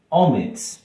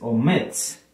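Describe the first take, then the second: First: The stress is on the first syllable. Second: The stress is on the last syllable. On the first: The speaker calls it wrong. "en la primera sílaba, perdón, porque si no diría omits" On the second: The speaker calls it right. "es omits. Si tiene el estrés al final"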